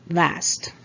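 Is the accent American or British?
American. It is said with an American accent.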